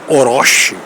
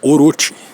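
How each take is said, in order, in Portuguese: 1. O nome tem uma pronúncia de estilo português. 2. O nome tem uma pronúncia de estilo japonês. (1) "a pronúncia tá errada" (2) "Se você colocar no japonês"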